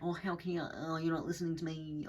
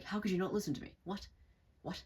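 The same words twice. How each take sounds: First: Annoying narcissist. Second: Higher-pitched, innocent disbelief with joy. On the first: Narcissist complaining of not being heard, annoying mock whine. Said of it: "they kinda sound fucking annoying". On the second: Innocent person protesting at not being heard, joyful. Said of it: "this joy to their voice". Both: Acted.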